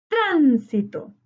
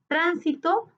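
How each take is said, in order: First: Tránsito slowly, TRÁN long and falling away; tonic syllable stressed. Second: Said in the usual way. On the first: Shown as a demonstration. Teacher marking the tonic syllable for students, TRÁN drawn out in Tránsito. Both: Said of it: "identificar la sílaba tónica".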